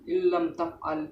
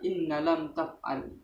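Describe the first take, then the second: First: The n is merged into the following l. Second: The n is pronounced clearly before the l. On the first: The speaker calls it right. "Bunyi nun sukun menjadi satu dengan lam" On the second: The speaker calls it wrong. "tidak boleh dibaca"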